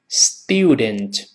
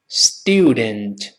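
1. 第一个音节带一个 'yoo' 的滑音。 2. 第一个音节带一个 'yoo' 的滑音。

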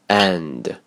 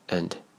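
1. 元音完整，重读清楚。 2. 元音弱化，发音较轻。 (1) "强读式" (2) "弱读式"

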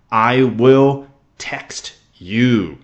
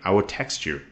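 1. 这句话是以正常、不慌不忙的语速说的。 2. 这句话说得很快，像日常闲聊那样。

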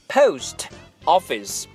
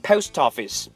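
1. 这两个词是分开读的。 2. 末尾的 t 连到后面的元音上。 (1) "所以我们不应该说post office" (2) "两个词已经连到了一块儿"

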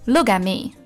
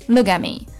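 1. t 音不爆破、保持闭塞，短语就连贯了。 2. t 音不爆破、保持闭塞，短语就连贯了。

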